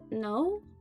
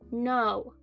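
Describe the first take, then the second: First: It is said quietly and hesitantly. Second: It is said loudly and clearly.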